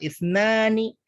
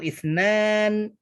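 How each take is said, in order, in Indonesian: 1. Kata ini diakhiri vokal tambahan. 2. Kata ini diakhiri konsonan tanpa vokal. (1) "ithnan boleh juga dikasih harokat" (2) "Ithnan boleh disukunkan ujungnya"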